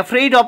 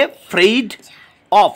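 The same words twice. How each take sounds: First: Said in the usual way. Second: "afraid of" broken into separate beats; syllable by syllable. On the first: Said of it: "তিনটে এখানে syllable". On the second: Shown as a demonstration. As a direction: say "afraid of" in pieces, with pauses. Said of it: "তিনটে এখানে syllable রয়েছে". ("afraid of" syllable ভেঙে, থেমে থেমে)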